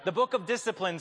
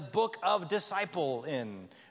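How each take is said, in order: First: The word is said as one normal word. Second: The word is split into 'disciple' plus 'in'. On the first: It names the rulebook in the usual way. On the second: It highlights the link to the word disciple.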